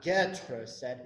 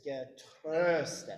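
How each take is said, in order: First: "getröstet" with the weight on GE, not on TRÖS; wrong first-syllable stress. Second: "getröstet" with TRÖS long and stressed; slow "getröstet", light GE, drawn-out TRÖS; second-syllable stress. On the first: Director showing choir the mistake, "getröstet" stressed on GE. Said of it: "stress is on the second syllable. Not, it's not". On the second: Director showing choir the correct stress, "getröstet" leaning on TRÖS. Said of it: "stress is on the second syllable". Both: Shown as a demonstration.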